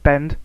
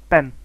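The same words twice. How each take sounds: First: Said in the usual way. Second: BEN, bend without its final 'd'; dropped final D. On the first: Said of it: "sounds at the end of words". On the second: Shown as a demonstration. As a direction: stop on the N of 'ben', no D. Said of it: "have been dropped".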